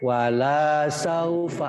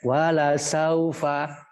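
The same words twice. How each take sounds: First: The vowel of 'la' is lengthened. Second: The vowel of 'la' is short. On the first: It turns into a negation. The speaker calls it wrong. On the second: It affirms that something will surely happen. The speaker calls it right.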